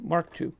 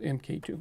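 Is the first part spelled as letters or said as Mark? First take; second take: Mark; letters. First: The first part is said as the word mark. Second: The first part is spelled out as letters. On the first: The speaker calls it right. "You pronounce this Mark II" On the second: The speaker calls it wrong. "Not MK2"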